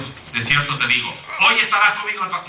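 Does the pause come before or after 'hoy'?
before. The pause comes right before 'hoy'.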